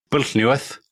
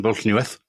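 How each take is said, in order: First: An outsider's earnest stab at Pwllheliwedd in Welsh; careful Welsh attempt. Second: Said in the usual way. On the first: Shown as a demonstration. Host naming the minister's Welsh town to his co-host, careful Welsh attempt. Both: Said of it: "absolutely impossible to pronounce as an outsider".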